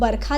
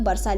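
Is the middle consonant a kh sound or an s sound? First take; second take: kh; s. First: The middle consonant is a kh sound. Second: The middle consonant is a dental s sound. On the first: "या तो बरखा लिख देगा" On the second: "दंत स वाली वर्षा"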